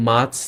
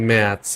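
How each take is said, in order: First: "মাথস" with an open a like in father, the wrong way. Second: "ম্যাথস" with the vowel pulled toward e, the right way; German ä sound. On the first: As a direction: say "মাথস" with a plain broad a instead of the ä. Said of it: "মাথস না". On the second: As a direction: say "ম্যাথস" with a front ä close to e. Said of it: "এটা ম্যাথস". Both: Shown as a demonstration.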